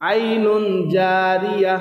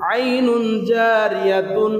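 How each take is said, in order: First: The last word ends with an 'h' sound. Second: The last word ends with a 'tun' sound. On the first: The reader stops at this word. "শেষে অক্ষ করলে ... তা হা হয়ে যাবে" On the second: The reading continues without stopping. "তা দুই পেশতুন"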